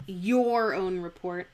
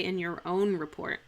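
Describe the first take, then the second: First: YOUR leaned on, louder, before "own report"; stress on YOUR. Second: Quicker, with the weight on "own"; natural stress on OWN. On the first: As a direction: put the weight on "your". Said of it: "I would like to say". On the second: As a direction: say it conversationally, leaning on "own". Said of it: "natural speech, I wouldn't do that". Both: Shown as a demonstration.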